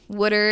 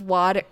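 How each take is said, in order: First: It is said in a Philadelphia accent, like 'wooder'. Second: It is said in a standard American accent. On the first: "your accent is constantly ridiculed because you say water" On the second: "instead of water"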